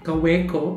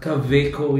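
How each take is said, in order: First: The name is said with an English-style pronunciation. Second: The name is said with a German-style pronunciation.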